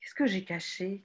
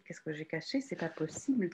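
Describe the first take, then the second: First: Said in the usual way. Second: "Qu'est-ce que j'ai caché?" muttered much softer and lower; wondering under her breath, half to herself; muttering to herself. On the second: Real, not acted.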